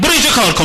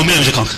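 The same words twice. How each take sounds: First: High, loud order to go work; bossy command. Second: Lower, resigned reply; meek compliance. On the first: The dominant spouse orders the other to work here, high and loud. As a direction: bark the order from above. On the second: The obedient spouse meekly accepts the order, low voice. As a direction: agree low without will. Acted submissive spouse obeying. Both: Acted.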